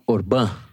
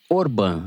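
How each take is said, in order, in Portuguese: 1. A sílaba tônica é a última. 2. A sílaba tônica é a primeira. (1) "e não Orbán" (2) "você fala Orbán"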